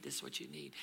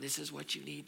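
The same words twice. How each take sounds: First: Lower, breathy whisper; whispered repeat. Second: Said in the usual way. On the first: Acted. Elijah whispering what he needs. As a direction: drop it to a whisper.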